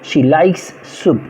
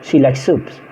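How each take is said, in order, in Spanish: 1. Se dice despacio, con los sonidos S separados. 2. Se dice rápido, con los sonidos S unidos. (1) "Hay que hacerlo muy lento para poder decir esta S" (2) "si lo hacemos rápido, prácticamente la S no suena"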